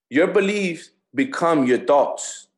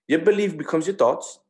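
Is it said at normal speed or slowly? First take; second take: slowly; normal. First: It is said slowly. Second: It is said at a normal pace.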